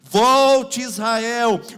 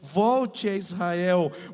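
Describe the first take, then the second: First: It is shouted loudly. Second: It is said at normal speaking volume.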